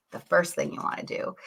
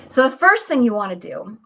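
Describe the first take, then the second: First: Breathy whispered restart; whispered repeat. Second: Said in the usual way. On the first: Shown as a demonstration. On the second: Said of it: "repeated quieter".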